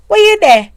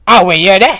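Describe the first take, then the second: First: High, loud, sassy Were you there; wife asking husband, full of sass; sassy question. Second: Mock sassy question. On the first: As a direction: throw it with a neck roll and an eye roll. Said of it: "I do it with the neck and the eye roll". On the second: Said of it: "is not in the sense that me I say". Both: Shown as a demonstration.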